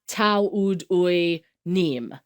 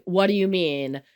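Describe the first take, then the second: First: Tau ud ui nim, each word sounded backwards, slowly; backwards speech. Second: Said in the usual way. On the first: Shown as a demonstration. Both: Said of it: "I can speak backwards fluently".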